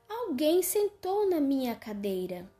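A voice neither deep nor thin is used.

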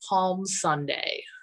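Every syllable is pronounced fully and carefully. It is how a Midwesterner says it. "how I would pronounce as a Midwesterner every little syllable"

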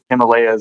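It is said the American way.

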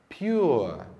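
The R sound is soft and barely heard. This is the British pronunciation. "no inglês britânico o R aparece bem lá no fundinho"

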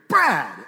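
The name is called in an angry, scolding tone. He is in trouble. "And I'm going to know I'm in trouble"

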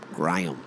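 It is said in an Australian accent.

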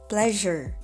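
It is said with an American accent. "but in American accent, it should be pleasure"

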